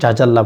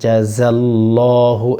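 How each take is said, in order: First: The second consonant is a j sound. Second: The second consonant is a z sound. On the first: The speaker calls it wrong. "অনেকে এখানে বলে থাকে জাজাল্লাহ, বলবেন না" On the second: The speaker calls it right. "একটা হচ্ছে জিম আর একটা হচ্ছে জা"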